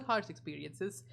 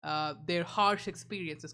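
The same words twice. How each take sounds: First: "harsh experiences" slow and sarcastic; sarcastic air quotes. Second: Said in the usual way. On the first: Shown as a demonstration. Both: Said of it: "quote, unquote".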